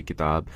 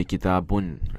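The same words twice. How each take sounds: First: "kitab" ending on a bare b; "kitab" stopped at the final consonant; kitab without ending. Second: "kitabun" with the -un ending voiced; "kitabun" with an added final "oon" sound; proper Arabic ending. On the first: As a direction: say "kitab" with no -un at the end. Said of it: "You don't say kitab". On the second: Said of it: "That's the proper Arabic way of saying it". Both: Shown as a demonstration.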